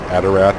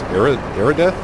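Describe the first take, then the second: First: The d comes before the r. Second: The r comes before the d. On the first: This is how the speaker usually says the name. The speaker calls it wrong. "I always say Adarath" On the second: This is probably the correct form of the name. The speaker calls it right. "but it's Aradeth, I think"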